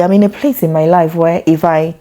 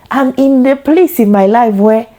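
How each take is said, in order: First: Said in the usual way. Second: A hint of a Nigerian auntie accent, raised higher; light Nigerian auntie accent. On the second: Mother imagining herself auditioning as an auntie, light Nigerian accent. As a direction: playfully slip into a Nigerian African auntie voice. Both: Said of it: "African auntie".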